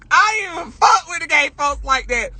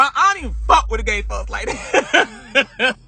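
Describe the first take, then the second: First: Higher, punching the word "fuck" with a firm fall; stress on fuck. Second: Laughing. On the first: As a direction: say it straight, leaning on "fuck". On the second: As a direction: laugh through the line as you admit it. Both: Real, not acted.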